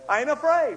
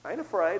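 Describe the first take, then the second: First: I ain't afraid raised high and louder, afraid falling; preacher's raised proclamation; louder declaration. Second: Said in the usual way. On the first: Shown as a demonstration. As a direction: declare it boldly.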